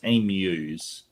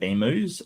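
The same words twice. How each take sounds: First: The second syllable sounds like 'mew'. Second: The second syllable sounds like 'moo'. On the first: This is how the speaker's own country says it. The speaker calls it right. "it's emus. So think of uh, like sort of um, Mewtwo" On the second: This is the American way of saying it. The speaker calls it wrong. "Americans pronounce it emus"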